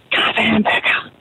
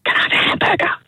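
First: Breathy whisper, slow; whispered punchline. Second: Whispered punchline. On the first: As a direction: lean in and whisper the order. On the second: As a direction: hush it like a secret. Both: Acted.

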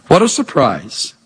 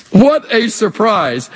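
First: Said in the usual way. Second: "What" leaned on, slow and amazed; slow marvelling emphasis. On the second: Shown as a demonstration. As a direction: savour "What a surprise" slowly, in wonder.

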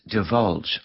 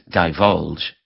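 First: "divulge" with a short, unstressed first syllable, duh-VULJ; first pronunciation. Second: "divulge" with a long i, dye-VULJ; alternative pronunciation. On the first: Radio host giving the word of the day, first pronunciation dih-VULJ. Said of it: "also pronounced divulge". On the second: Radio host giving the word's other pronunciation, dye-VULJ. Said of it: "also pronounced". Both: Shown as a demonstration.

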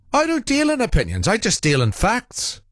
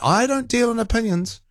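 First: Lightly voiced pompous caller, high; a hint of Irish John's lofty tone; mimicking John. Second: A light high mock of the caller; mimicking John. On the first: Host mocking a caller's catchphrase, lightly high. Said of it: "I can't do his accent". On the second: Host mocking the caller again, mild high mimicry. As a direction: toss off his line in a mild mocking voice. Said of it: "he pretends he's not giving an opinion".

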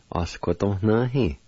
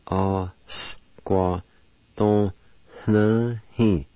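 First: "A squa ton na hi" joined as one word; whole-word demo. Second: "A squa ton na hi" in separate held syllables; syllable-by-syllable demo. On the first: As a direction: say "A squa ton na hi" without breaks. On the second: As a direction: break up "A squa ton na hi" for learners. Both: Shown as a demonstration. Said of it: "And it's pronounced like this".

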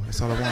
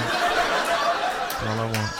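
First: Said in the usual way. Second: Drawn-out, pleading and low; slow wistful repeat. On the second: Acted. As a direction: stretch it out longingly.

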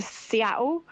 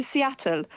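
First: Seattle with the T dropped, Essex style; Essex pronunciation. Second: Seattle pronounced carefully with the T sounded; careful desk-clerk Seattle, every consonant in place; corrected pronunciation. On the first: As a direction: say Seattle loosely in an Essex accent, without a crisp T. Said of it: "comment on the way that I speak". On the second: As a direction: correct someone with a drawn-out, standard Seattle. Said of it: "the woman at the desk saying". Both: Retold or imitated.

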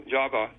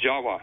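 First: Said in the usual way. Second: "Jawa" with a w sound; "Jawa", v turned into w; Indonesian pronunciation. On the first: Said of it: "V's are pronounced as W's". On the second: Shown as a demonstration. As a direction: say "Jawa" with a W where the v would be. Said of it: "is pronounced Jawa".

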